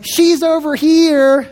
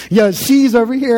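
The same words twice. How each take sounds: First: Higher, slow drawn-out call; stretched-out holler, mildly raised. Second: Said in the usual way. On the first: Retold or imitated. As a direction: imitate a woman calling from a few aisles over. Lady calling from aisles away.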